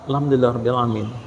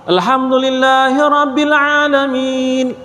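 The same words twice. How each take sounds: First: The phrase is recited quickly. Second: The phrase is recited at a slower pace. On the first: The follower recites it within the leader's pause. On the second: The leader recites, then pauses after the verse.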